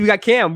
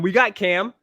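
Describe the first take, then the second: First: We got Cam with Cam punched high and falling; stress on Cam. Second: We got Cam with got lifted on a rise; stress on got. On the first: Fan boasting about his team, hitting Cam. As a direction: land hard on the name Cam. Hyping his team's quarterback. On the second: Fan repeating his boast, leaning on got. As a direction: lean on the word got. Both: Real, not acted.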